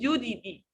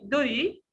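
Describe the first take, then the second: First: The middle consonant is a hard, heavy T. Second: The middle consonant is a light, quick flap. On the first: The speaker calls it wrong. "We don't say Dudi" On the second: The speaker calls it right. "it's light D, the sound"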